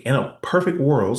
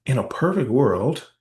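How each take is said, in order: First: "perfect" leaned on, louder, falling; stress on perfect. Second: "perfect" rising, each word slow and louder; slow rising ask. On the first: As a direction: land hard on "perfect" with a falling tune. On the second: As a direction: draw out "perfect" slowly and lift it into a question. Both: Shown as a demonstration. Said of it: "I'm gonna ask a hypothetical here".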